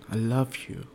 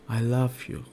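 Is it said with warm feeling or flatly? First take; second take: warm; warm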